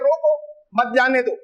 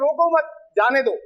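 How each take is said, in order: First: There is a pause right after 'roko'. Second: There is a pause right after 'mat'. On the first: Stop it, do not let it go. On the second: Do not stop it, let it go.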